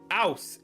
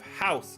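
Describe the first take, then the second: First: The word starts without an h sound. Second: The word starts with an h sound. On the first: "they would actually not pronounce the H at the start of words" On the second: "instead of house"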